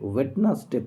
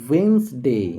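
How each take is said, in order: First: It has three syllables with a middle 'd'. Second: It has two syllables with no middle 'd'. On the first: The speaker calls it wrong. "আমরা অনেকে এটাকে ওয়েডনেসডে পড়ি" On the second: The speaker calls it right. "এর সঠিক উচ্চারণ ওয়েন্সডে"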